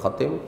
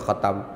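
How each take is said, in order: First: The second syllable has the vowel 'i'. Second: The second syllable has the vowel 'a'. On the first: This is a less common accepted reading. "walaupun boleh ada sebahagiannya membaca dengan khatim" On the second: This is the well-known reading. "tapi bacaan masyhurnya khatam"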